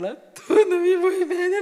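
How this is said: It is said in a tearful, crying voice. "l'ho detto con quel pianto"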